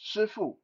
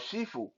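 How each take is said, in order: First: It is said with a Mandarin pronunciation. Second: It is said with a Cantonese pronunciation.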